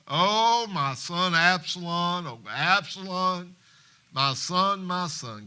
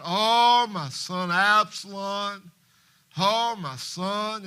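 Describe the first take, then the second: First: Slow, wailing lament of a grieving father; crying out in grief. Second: Loud, slow wail at a funeral; hollering in grief. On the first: Acted. Father mourning his dead son, slow wail. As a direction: draw out the cry for his lost son. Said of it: "the king cried with a loud voice". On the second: Retold or imitated. Mourner at a funeral hollering for a son, slow wail. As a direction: cry it out long and broken. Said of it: "just holler out".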